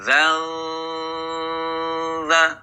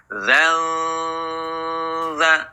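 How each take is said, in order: Both takes have the same delivery.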